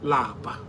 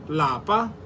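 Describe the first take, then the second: First: The word is said with a low tone. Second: The word is said with a high tone. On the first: It means to be tired. "Lower tone" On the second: It means home. "In higher tone"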